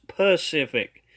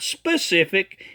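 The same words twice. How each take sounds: First: "Pacific" as puh-SIF-ic, no s; correct pronunciation. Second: "specific" slow, with a clear sp at the start; wrong pronunciation. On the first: Critic corrects the error, "Pacific" begun with p alone. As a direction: open "Pacific" on a clean puh. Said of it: "it's Pacific". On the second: Critic shows Timothy's error, "specific" slowly with sp. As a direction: stress the intruding s in "specific". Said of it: "not specific". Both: Shown as a demonstration.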